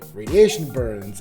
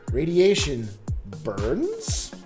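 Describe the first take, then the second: First: Said as one noun phrase naming an injury. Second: Said as a full statement about radiation. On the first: It names injuries caused by radiation. "didn't sound like you were saying like radiation burns" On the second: It claims that radiation causes burns. "like you were informing us that radiation in fact burns"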